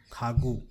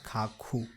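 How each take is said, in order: First: Khagu, K first, G second; correct pronunciation. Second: Khakhu with two hard K sounds; wrong pronunciation. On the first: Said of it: "it will be pronounced as Khagu". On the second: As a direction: say Khakhu, K both times. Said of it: "not Khakhu". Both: Shown as a demonstration.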